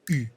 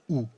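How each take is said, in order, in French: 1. La lettre se prononce à la française, comme u. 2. La lettre se prononce à l'allemande, comme ou. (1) "Quand un Français prononce cette lettre" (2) "L'Allemand, lui, dit"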